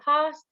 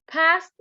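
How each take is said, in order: First: It is said with a British accent. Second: It is said with an American accent. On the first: "we can say past in British English" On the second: "we can say past in, in American English"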